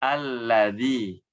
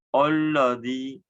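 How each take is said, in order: First: Alladzi with open light a; thin alladzi; correct thin lam. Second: Alladzi with dark, rounded o, olladzi; heavy olladzi; wrong thick lam. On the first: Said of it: "A, dibuka mulutnya". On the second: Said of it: "nah, jadi tebal". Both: Shown as a demonstration.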